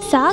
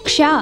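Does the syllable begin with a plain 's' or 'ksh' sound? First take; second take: plain s; ksh. First: The syllable starts with a plain 's' sound. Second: The syllable starts with a 'ksh' cluster. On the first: The speaker calls it wrong. "సా కాదు" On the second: The speaker calls it right.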